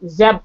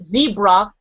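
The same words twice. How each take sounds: First: "zeb-" broken off unfinished; American pronunciation. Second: "zebra" said slowly, carefully; our pronunciation. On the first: Attempting how they say it, cut-off "zeb-". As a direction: try "zeb-" the other way, then stop. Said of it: "and they say zeb". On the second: Showing how we say it, careful "zebra". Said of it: "Like, we say zebra". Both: Shown as a demonstration.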